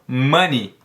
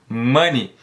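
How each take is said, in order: First: The word ends with an 'ee' vowel sound. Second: The word ends with an 'ee' vowel sound.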